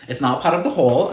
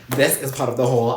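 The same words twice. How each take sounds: First: "not" picked out as a correction; stress on NOT. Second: "This" punched at the start; stress on THIS. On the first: Vlogger setting a book aside, stress on "not". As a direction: lean on "not" to rule it out. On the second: Vlogger pointing out the right book, stress on "This". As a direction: hit "This" to single out the book. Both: Real, not acted.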